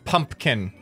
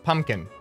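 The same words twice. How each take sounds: First: The middle P sound is clearly pronounced. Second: The middle P sound is left out. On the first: The speaker calls it wrong. "Nobody says pumpkin" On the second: The speaker calls it right. "nobody pronounces the P. It's pumpkin"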